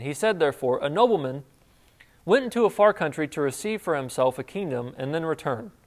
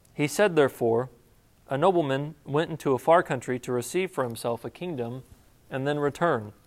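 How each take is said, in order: The two takes are said the same way.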